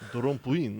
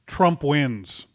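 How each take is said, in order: First: It is said in a put-on Dracula voice. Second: It is said in his normal voice.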